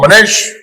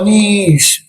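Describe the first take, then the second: First: The name is said with expressive feeling. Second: The name is said in a sad tone.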